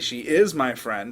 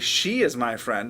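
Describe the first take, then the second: First: The word "is" carries the emphasis. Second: The word "she" carries the emphasis. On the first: It contradicts a claim that she is not. "I'm responding to somebody who just said she's not my friend" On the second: It is her and not another person. "I'm telling you that it's not some other person"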